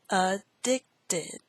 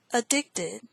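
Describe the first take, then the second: First: "Addicted" broken into a-dic-ted; syllable by syllable. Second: Said in the usual way. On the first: Shown as a demonstration. Teacher repeats word six, "Addicted" in separate syllables. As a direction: sound out "Addicted" in three separate beats.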